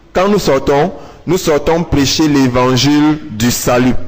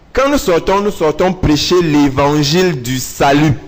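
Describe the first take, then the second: No difference in how they are said.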